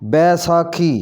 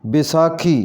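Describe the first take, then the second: First: बैसाखी opening on a full 'bai'; correct pronunciation. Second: बैसाखी opening on a short 'bi'; mispronounced first vowel. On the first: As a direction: say बैसाखी as 'bai-saa-khee'. (बैसाखी का 'बै' पूरा बोलें) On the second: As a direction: say बैसाखी as 'bi-saa-khee'. (बैसाखी को 'बिसाखी' जैसा बोलें) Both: Shown as a demonstration. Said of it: "इसका सही तलफ़ुज़ होगा".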